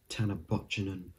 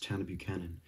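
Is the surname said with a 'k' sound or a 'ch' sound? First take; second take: ch sound; k sound. First: The surname is said with a 'ch' sound. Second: The surname is said with a 'k' sound. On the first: The speaker calls it wrong. "Not Tanner Butchenen" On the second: The speaker calls it right. "So that's how it is"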